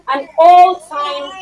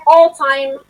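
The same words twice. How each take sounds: First: An all-time stretched very slow; drawn-out emphasis. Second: Said in the usual way. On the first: Shown as a demonstration. Teacher lingers on an all-time praising Titanic, slow. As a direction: lean on all-time, savoring every syllable. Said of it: "stretching praise for Titanic". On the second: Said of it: "repeating the praise word".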